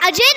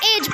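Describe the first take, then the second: First: A vowel is sounded at the end. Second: The word ends without a final vowel. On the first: The speaker calls it wrong. "अजय नहीं पढ़ेंगे" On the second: The speaker calls it right. "हम इसे एज पढ़ेंगे"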